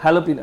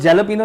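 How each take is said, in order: First: The word begins with an H sound. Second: The word begins with a J sound. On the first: The speaker calls it right. "वो हैलोपिनो है" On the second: The speaker calls it wrong. "वो जैलोपिनो नहीं है"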